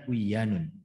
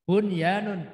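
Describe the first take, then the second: First: The n sound is merged into the following y. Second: The n sound is pronounced clearly before the y. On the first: The speaker calls it wrong. "bukan buyanun" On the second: The speaker calls it right. "Bunyanun, bukan buyanun"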